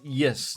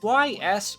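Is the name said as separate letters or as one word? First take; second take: one word; separate letters. First: It is said as a single word, yes. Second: It is said as two separate letter names. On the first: "is it pronounced like y- yes" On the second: "is it Y S"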